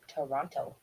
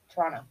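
First: Non-Canadian way, with the last T pronounced. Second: Canadian way, with the last T dropped.

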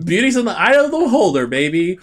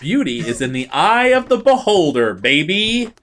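First: The consonants are swallowed and words run together. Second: The consonants are crisp and clearly articulated. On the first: The speaker calls it wrong. "I swallowed all those consonants" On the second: The speaker calls it right. "Proper diction"

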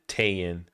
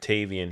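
First: The name is said without any v sound. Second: The name is said with a clear v sound. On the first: The speaker calls it wrong. "he said Tayan" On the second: The speaker calls it right. "when he said Tavian"

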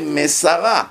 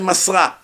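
First: The word is said in three syllables. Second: The word is said in two syllables. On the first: He handed it over. The speaker calls it right. "You have to say Mesara. Mesara means Masar ota, with the dagesh" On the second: She handed it over. The speaker calls it wrong. "If Moshe was a woman, then you say Masra"

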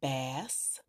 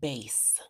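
First: The vowel is the short A sound. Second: The vowel is the long A sound. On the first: It names a kind of fish. "pronounced with the short A, A sound" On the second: It names a deep or low tone. "pronounced with the long A sound"

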